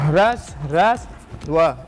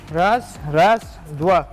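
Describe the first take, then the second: No difference in how they are said.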